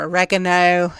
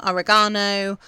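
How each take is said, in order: First: OREGANO stressed on the second syllable, o-REG-a-no; local pronunciation. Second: Said in the usual way. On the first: Shown as a demonstration. Gardener showing listeners what they call it over here, oregano as o-REG-a-no. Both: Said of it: "as you guys call it over here".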